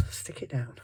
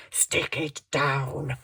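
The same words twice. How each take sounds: First: Said in the usual way. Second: "Stick it down" slowly stretched out; drawn-out repeat. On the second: Real, not acted. Crafter to herself while gluing, "Stick it down" drawn out. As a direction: draw out each word of "Stick it down".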